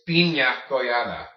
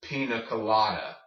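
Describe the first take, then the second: First: Piña colada as PEEN-ya co-LA-da; loud, clear ny in piña colada; piña colada pronounced the Spanish way. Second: Pina colada as PEE-nuh kuh-LAH-duh; plain N in pina colada; anglicized, no ñ. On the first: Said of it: "the N plus Y sound". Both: Shown as a demonstration.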